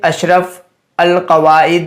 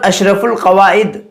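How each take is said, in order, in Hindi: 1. 'al' को उसके अलिफ़ के साथ अलग से बोला जाता है। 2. 'al' का अलिफ़ खामोश है, इसे 'ul' की तरह जोड़ा जाता है। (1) "यहाँ पर आप पढ़ते अशरफ अल कवाइद" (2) "अलिफ या अलिफ लाम साइलेंट होने का कोई कायदा"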